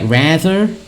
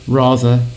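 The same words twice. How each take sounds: First: It is said in an American accent. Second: It is said in a British accent. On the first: "American is more like rather" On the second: "in British English it's more like rather"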